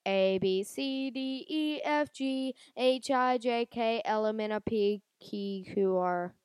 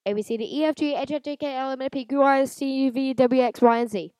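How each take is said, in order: First: Drawn-out halting ABCs; slow recitation. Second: Rapid sing-song ABCs; fast recitation. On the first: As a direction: spell each letter slowly and unsure. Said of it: "But if I do it like". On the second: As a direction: rattle off the alphabet quickly. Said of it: "I did it if I do it fast". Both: Shown as a demonstration.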